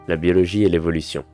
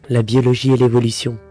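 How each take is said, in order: First: It is read in the normal speaking voice. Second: It is read in a raised, higher-pitched voice.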